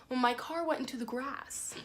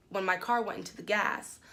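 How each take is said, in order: First: Said in the usual way. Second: GAS said for grass, the r dropped; slip of the tongue. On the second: Real, not acted. Correcting herself while telling the story, slip on GAS with no r. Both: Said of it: "um, I said gas".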